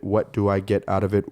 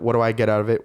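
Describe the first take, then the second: First: The phrase is said slowly. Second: The phrase is said quickly. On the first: "I had to slow that down" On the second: "did I say that right?"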